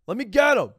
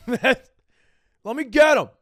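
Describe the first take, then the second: First: Higher and louder, straight-faced; mock eager yell. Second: Slow and loud, laughing through it; laughing mock yell. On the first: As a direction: yell it again, no laugh, pushy. Same plea repeated without laugh. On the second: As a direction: crack up while yelling to get him. Same plea, laughing, drawn out.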